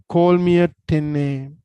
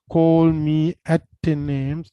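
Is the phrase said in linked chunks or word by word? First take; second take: chunked; word by word. First: The words are linked together in smooth chunks. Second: The words are said separately, one by one. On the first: The speaker calls it right. "it's very important to chunk in කරලා කරන්න ඕනේ" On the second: The speaker calls it wrong.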